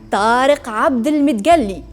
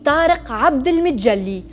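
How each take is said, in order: First: The name is said with an Egyptian accent. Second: The name is said with a Tunisian accent.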